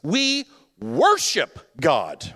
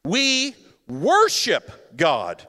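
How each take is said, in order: No difference in how they are said.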